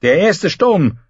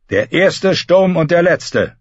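First: Said in the usual way. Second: Sturm drawn out slowly with weight; slow each word, lean on Sturm; slow proud echo. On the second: A narrator's reading. Euron turning the warning back, slow and proud.

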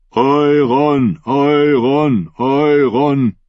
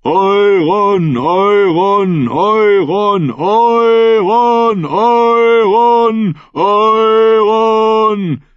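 First: Steady, higher crowd chant; chanted call. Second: High, long-drawn roared chant; full roar. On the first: Captains join in acclaiming Euron, steady chanted call. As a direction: chant the name with long vowels. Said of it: "Der Ruf schwoll an". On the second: Thousand voices call Euron's name, high climbing roar. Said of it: "Das Gebrüll rollte Nagas Hügel hinauf". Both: A narrator's reading.

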